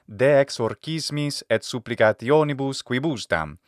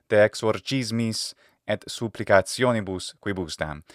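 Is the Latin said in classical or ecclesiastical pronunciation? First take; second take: classical; ecclesiastical. First: The Latin is said in classical pronunciation. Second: The Latin is said in ecclesiastical pronunciation.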